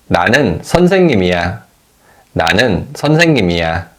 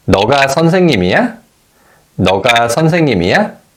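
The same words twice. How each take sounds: First: 나는 선생님이야 with the pitch falling on 이야; 선생님이야 settling downward at the end; falling statement tone. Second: 너가 선생님이야 with the pitch rising on 이야; 선생님이야 climbing up at the final syllable; rising question tone. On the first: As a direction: say 나는 선생님이야 as a plain statement, ending low. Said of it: "the tone falls at the end of the statement". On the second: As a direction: ask 너가 선생님이야 with the end lifted. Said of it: "the tone rises at the end". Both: Shown as a demonstration.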